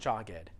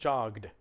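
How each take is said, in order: First: The ending is said as an extra syllable. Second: The ending is just a short d sound. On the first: The speaker calls it wrong. "it's not jogged. It's not an extra syllable" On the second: The speaker calls it right. "It's just one syllable"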